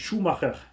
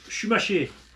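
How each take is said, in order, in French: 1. Le nom se prononce avec des sons allemands. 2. Le nom se prononce avec des sons français. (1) "en allemand ça se dit Schumacher" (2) "Les Français ils disent Schumacher"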